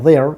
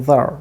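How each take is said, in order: First: THERE with full e vowel and R; American strong-form 'there'; North American pronunciation. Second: THERE reduced to 'ther'; unstressed 'there', schwa in place of the full vowel; weak form. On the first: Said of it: "North American pronunciation হচ্ছে গিয়া". ('there' উত্তর American উচ্চারণে) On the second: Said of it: "and in weak form it". ('there' দুর্বল রূপে, শোয়া দিয়ে) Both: Shown as a demonstration.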